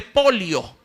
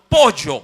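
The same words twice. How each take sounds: First: Pollo said as polio, with an l-plus-i sound; highland pronunciation. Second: Pollo with a plain y-like sound, po-yo; coastal pronunciation. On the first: Preacher shows how the sierra says chicken, highland pronunciation. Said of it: "En la sierra suelen decirle". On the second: Preacher shows how the coast says it, coastal pronunciation. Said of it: "nosotros decimos". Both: Shown as a demonstration.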